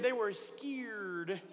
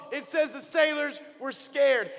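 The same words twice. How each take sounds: First: Very slow, softer drawn-out scared; level two scared. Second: Said in the usual way. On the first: Shown as a demonstration. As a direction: stretch "scared" out slowly and quietly for effect. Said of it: "they were level two scared". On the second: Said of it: "Actually, they were level two scared".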